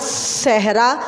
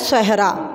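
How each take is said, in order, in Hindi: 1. पहले व्यंजन में सीटी जैसी हिस है। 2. पहले व्यंजन में सीटी जैसी हिस नहीं है। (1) "सीटी वाली आवाज़" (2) "स्वाद के साथ सीटी वाली आवाज़ नहीं आ रही"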